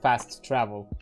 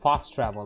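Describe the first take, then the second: First: Both t sounds are clearly pronounced separately. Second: The two t sounds merge into one soft t. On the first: The speaker calls it wrong. "not as enunciated double T" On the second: The speaker calls it right. "It's just a singular, more non-enunciated T"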